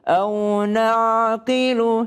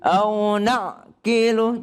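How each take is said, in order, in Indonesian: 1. Ain mengalir lancar tanpa henti. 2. Ain ditekan menjadi henti mendadak. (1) "tapi mengalir" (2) "jangan ditekan seperti au na'qilu"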